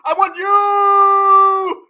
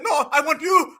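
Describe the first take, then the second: First: Very slow, louder, stretched yell; hammed-up yearning shout; drawn-out mock plea. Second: Said in the usual way. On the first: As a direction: drag it out like a desperate kid. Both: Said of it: "He said".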